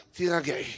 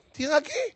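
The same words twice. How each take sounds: First: Low, soft תירגעי, falling at the end; soft calming order. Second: תירגעי jumping up high, rising at the end; high mock take. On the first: Acted. Rabbi telling a nervous woman to relax, softly. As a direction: settle her with a quiet, low word. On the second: Rabbi echoing his advice to the nervous woman, high-pitched. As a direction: squeak the word upward in mockery.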